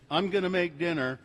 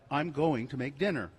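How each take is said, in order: First: Going to is reduced to gonna. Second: Going to is said in full. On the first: The speaker calls it wrong. "saying gonna instead of going to" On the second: The speaker calls it right. "instead of"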